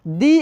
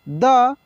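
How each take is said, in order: First: The vowel is long, like 'thee'. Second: The vowel is short, like 'thuh'. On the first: The next word begins with a vowel sound. "इसलिए हम लोग इसको दी पढ़ेंगे" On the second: The next word begins with a consonant sound. "द पढ़े"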